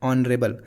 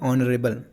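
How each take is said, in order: First: The word begins with a vowel sound. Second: The word begins with a vowel sound.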